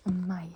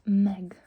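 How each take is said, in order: First: "meg" said like English "my"; "meg" with a gliding vowel and silent G; correct pronunciation. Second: "meg" with a hard G at the end; louder "meg", rhyming with leg; wrong, as spelled. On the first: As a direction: say "meg" as mai, no G. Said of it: "but it's pronounced". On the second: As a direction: say "meg" just as it is written. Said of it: "it doesn't say". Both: Shown as a demonstration.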